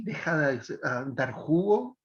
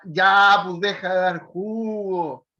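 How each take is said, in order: First: Sarcastic. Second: Loud sharp opening "Ya"; firm exclamation. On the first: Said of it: "en ese tono". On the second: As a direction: scold them firmly but lovingly. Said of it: "o te diría". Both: Shown as a demonstration.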